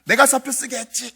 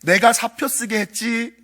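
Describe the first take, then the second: First: Sing-song ghost taunt. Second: Slow ghost confession. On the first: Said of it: "뭐 이러더라고요". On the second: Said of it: "그랬더니". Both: Retold or imitated.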